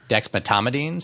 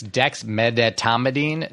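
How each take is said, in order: First: A middle syllable of the word is dropped. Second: Every syllable of the word is pronounced. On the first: The speaker calls it wrong. "not dexmedetomidine. So people leave out that middle syllable" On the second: The speaker calls it right. "It's dexmedetomidine"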